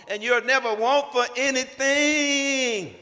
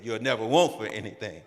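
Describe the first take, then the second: First: NEVER drawn out high and loud, slow and soaring; grand promise. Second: Said in the usual way. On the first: Retold or imitated. Proposing by phone, a slow soaring promise on never. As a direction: sell the promise, stretching never. Promising his future wife everything.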